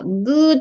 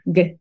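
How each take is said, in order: First: The sound is long, with pursed, rounded lips. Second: The sound is short, pushed from the throat. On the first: The speaker calls it wrong. "この口先で発音してるんですね。カタカナのグーって。" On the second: The speaker calls it right. "この喉のあたりからグッ"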